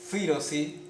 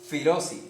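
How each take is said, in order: First: The stress is on the first syllable. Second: The stress is on the second syllable. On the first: "puede marcarse el acento en fi o en ro" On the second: "o en ro"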